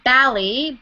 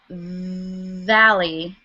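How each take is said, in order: First: The word begins with a B sound. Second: The word begins with a V sound. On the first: The speaker calls it wrong. "be careful with the um, with B's and V's. So not valley" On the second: The speaker calls it right. "but valley"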